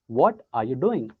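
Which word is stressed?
what. The word what is stressed. "let's focus on what"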